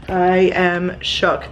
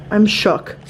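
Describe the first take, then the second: First: "I am shook" drawn out slowly, each word leaned on; slow emphatic. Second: Said in the usual way. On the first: Real, not acted.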